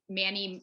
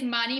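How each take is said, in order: First: The a vowel sounds anglicized. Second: The a vowel keeps its native sound. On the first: The speaker calls it wrong. "a lot of people want to say" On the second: The speaker calls it right. "it is"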